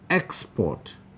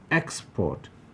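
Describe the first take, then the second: First: The stress is on the first syllable. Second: The stress is on the first syllable.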